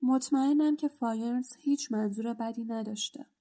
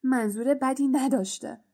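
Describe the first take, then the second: First: Understated grieving plea; sorrowful. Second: Scornful repeat, stress on بدی, falling; mild sneering anger; angry mocking echo. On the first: Acted. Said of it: "با حالتی اندوهگین گفت". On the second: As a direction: throw his words back with contempt on بدی. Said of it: "بین با خشم و غضب جفتکی پراند و گفت".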